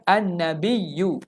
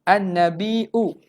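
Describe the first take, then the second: First: A doubled y glide comes before the final vowel. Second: A glottal stop comes before the final vowel. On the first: "dengan ya" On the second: "kalau dengan hamzah maknanya nabiu"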